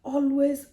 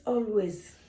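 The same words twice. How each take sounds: First: ALWAYS said high and loud, first word hit hard; "Always" punched out loud and high to stress it; emphatic always. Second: Said in the usual way. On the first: Shown as a demonstration.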